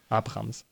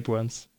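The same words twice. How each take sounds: First: The name is pronounced the German way. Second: The name is pronounced the English way. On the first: The speaker calls it wrong. "warum ich in eine deutsche Aussprache reingerutscht bin" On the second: The speaker calls it right. "Klingt besser"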